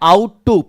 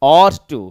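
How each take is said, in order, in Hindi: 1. पहला स्वर 'out' में 'ow' जैसा लगता है। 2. पहला स्वर 'law' में 'aw' जैसा लगता है। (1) "पढ़ना गलत है" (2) "ऑट टू पढ़ेंगे"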